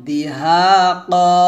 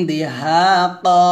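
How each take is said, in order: No difference in how they are said.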